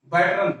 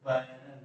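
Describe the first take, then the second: First: बैटरन said with a t sound, baTran; wrong pronunciation. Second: बैरन said as bai-ran with no t, softly; corrected pronunciation. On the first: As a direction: mispronounce it as बैटरन with a t in the middle. (बैटरन गलत उच्चारण, बीच में ट के साथ) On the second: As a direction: say the corrected बैरन carefully, no t sound. (बैरन सही उच्चारण, बिना ट के, धीरे से) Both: Shown as a demonstration. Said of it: "बैटरन नहीं, बैरन".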